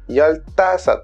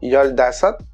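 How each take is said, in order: First: The second syllable starts with a hard t. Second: The second syllable starts with a soft d. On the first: The speaker calls it right. "mais ça se dit yoltasot" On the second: The speaker calls it wrong. "j'entends souvent yoldasot"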